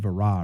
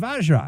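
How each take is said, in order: First: The name is said without a J sound. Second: The name is said with a J sound.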